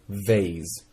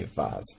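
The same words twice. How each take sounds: First: Vase said veɪz, long A as in face; "vase" rhyming with face. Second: Vase said vɑz, open ah as in father; "vase" with broad ah. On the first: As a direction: say vase with the ay vowel. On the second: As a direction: say vase with a long ah. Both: Shown as a demonstration. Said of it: "but I say vase".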